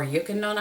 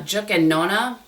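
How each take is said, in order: First: The name begins with a Y sound. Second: The name begins with a J sound.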